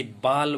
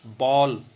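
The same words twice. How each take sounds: First: बाल with a long unrounded "aa"; open आ vowel. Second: बॉल with open rounded "aw", drawn out; rounded ऑ vowel. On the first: Teacher contrasting word meanings, बाल with an open "aa". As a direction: say बाल as "baal", lips unrounded. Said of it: "जैसे बाल बोलेंगे". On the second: Teacher contrasting word meanings, बॉल with a rounded "aw". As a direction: say बॉल slowly like English "ball". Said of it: "उच्चारण में अंतर के कारण". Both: Shown as a demonstration.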